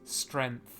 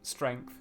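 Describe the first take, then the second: First: The word is said without the g sound. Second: The word is said with the g sound.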